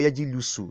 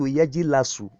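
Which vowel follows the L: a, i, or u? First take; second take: u; a. First: The vowel after the L is u. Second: The vowel after the L is a. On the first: "or yajilusu. No. Very wrong" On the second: "it is wrong for you to say to turn yajlisu to yajilasu"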